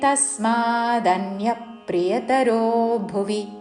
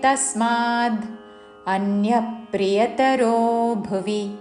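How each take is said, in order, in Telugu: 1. చివరి 'd' తదుపరి అచ్చుతో కలిసి 'da' అవుతుంది. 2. చివరి 'd' తదుపరి పదం నుండి వేరుగా ఉంటుంది. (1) "కలిపి దా అని పలుకుతూ తస్మాదన్య ప్రియతరో భువి అని పలకాలి" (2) "చివరిలో పొల్లుద్దా"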